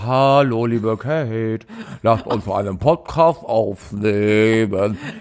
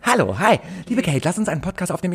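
First: It is said slowly and heavily. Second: It is said fast and lightly.

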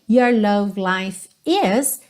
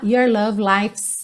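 First: The verb is said as a separate full word. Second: The verb is contracted onto the previous word.

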